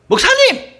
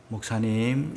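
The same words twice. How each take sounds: First: Much higher and louder 목사님 yelled harshly; harsh shout. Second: Soft, gentle call of the title. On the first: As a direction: bark out 목사님 like a rude summons. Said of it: "이러면 안 돼요". (높고 크게 버럭 소리치기) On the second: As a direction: call 목사님 softly and kindly. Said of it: "이렇게 해야 돼요". (부드럽고 다정하게 부르기) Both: Shown as a demonstration.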